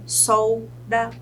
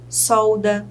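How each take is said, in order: First: "solda" split into sol, da; syllable by syllable. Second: Said in the usual way. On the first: Shown as a demonstration. Teacher shows two syllables to students, "solda" syllable by syllable. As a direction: pause after sol in "solda". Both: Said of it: "Se ela tem duas sílabas".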